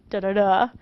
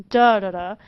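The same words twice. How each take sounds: First: "da-da-da" with the last da stressed and rising; weak, weak, then hit the last da; anapest rhythm. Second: "da-da-da" with the first da punched loud; dactyl rhythm. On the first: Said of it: "two unstressed followed by a stress". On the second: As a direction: hit the first da hard, then two light ones. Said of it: "one stressed, two unstressed". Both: Shown as a demonstration.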